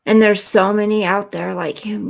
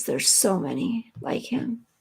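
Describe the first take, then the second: First: Said in the usual way. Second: A soft, breathy whisper of quiet sorrow; a hushed aside full of real feeling; sad whisper. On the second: Real, not acted. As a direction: let it fall to a whisper, almost to herself. Repeats the line, then whispers it.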